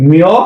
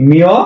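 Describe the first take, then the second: Both takes have the same delivery.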